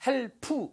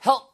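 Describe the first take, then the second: First: "help" as two syllables, "hel-pu"; wrong added vowel. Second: "help" in one syllable, no vowel after p; correct final P. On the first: Teacher shows students the mistake, "help" said as "hel-pu". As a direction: add a full oo vowel after the p of "help". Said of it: "이렇게 붙이시면 안 돼요". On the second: Teacher models "help" ending on a bare p. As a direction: stop "help" short on a bare p. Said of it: "이렇게 하는 느낌으로 하셔야". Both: Shown as a demonstration.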